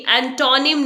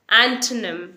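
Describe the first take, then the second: First: "एंटोनिम" as en-TAW-nim; wrong pronunciation. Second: "एंटोनिम" as ANT-num, middle vowel dropped; correct pronunciation. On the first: Teacher showing what not to say, en-taw-nim. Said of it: "नहीं बोलते हैं". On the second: Teacher modelling the correct word, ant-num. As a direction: say "एंटोनिम" stressed first, ant-nuhm. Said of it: "हम इसे बोलेंगे". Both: Shown as a demonstration.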